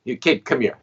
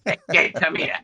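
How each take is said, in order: First: Said in the usual way. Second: Higher, laughing gruff-old-man imitation; a chuckling, raised mock of the old man; mimicking an old man. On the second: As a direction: send up the old guy calling him kid. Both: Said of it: "an older man".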